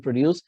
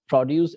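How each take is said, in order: First: Pro-DUCE, second syllable stressed; "produce" as a verb, pro-DUCE. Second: PRO-duce, first syllable stressed; "produce" as a noun, PRO-duce. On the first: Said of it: "accent on the second syllables". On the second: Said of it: "accent on first syllable". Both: Shown as a demonstration.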